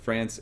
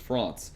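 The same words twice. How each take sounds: First: It is said with an American English pronunciation. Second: It is said with a mumbled French pronunciation. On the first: The speaker calls it wrong. "country like France" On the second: The speaker calls it right. "in French is France"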